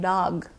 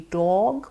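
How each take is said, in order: First: The vowel is an open ah sound. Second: The vowel is a rounded O sound. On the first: The speaker calls it wrong. "open their mouths too wide and say ah" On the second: The speaker calls it right. "the proper pronunciation of the word would be dog"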